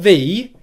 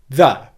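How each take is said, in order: First: The word is said with a full, strong vowel. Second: The word is said with a reduced, weak vowel. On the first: The speaker calls it wrong. "Not the" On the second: The speaker calls it right. "unstressed, weak pronunciation of the word the"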